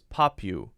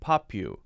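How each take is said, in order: Both takes have the same delivery.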